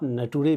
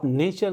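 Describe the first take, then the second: First: It is read letter by letter, 'na-too-re'. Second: It is said as two syllables, 'nay-cher'. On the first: The speaker calls it wrong. "आप नटुरे भी पढ़ सकते हैं" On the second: The speaker calls it right. "नेचर नहीं कह के"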